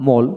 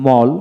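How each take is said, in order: First: মোল with a rounded "oh" vowel; British মোল for learners to copy; British pronunciation drill. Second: মল with an open "aw" vowel; American মল for learners to copy; American pronunciation drill. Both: Shown as a demonstration. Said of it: "এইভাবে দুইটা উচ্চারণে পড়াবেন".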